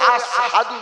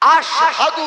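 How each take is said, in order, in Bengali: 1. প্রথম ব্যঞ্জনটি 's' উচ্চারণ। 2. প্রথম ব্যঞ্জনটি 'sh' উচ্চারণ। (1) "শিনের উচ্চারণটা সিনের মতো।" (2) "আশহাদু না বলে"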